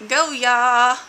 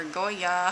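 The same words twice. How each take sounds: First: Loud, higher, stretched-out GO YA; drawn-out cheer. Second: Said in the usual way. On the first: Shown as a demonstration. Announcing the theme of the week, loud drawn-out cheer. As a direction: belt out "go ya" as a slogan. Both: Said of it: "however you wanna say it".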